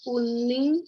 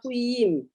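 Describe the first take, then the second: First: The second syllable starts with an n sound. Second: The second syllable starts with a y sound. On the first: The speaker calls it right. "kuning dengan ujung jari" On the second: The speaker calls it wrong. "N itu ya nggak bisa N, jadi kuying ying"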